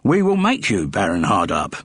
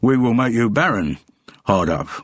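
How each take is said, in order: First: Baron Hardup is phrased together as one name. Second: It is split as barren, hard up.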